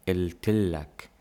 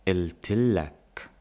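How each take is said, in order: Both takes have the same delivery.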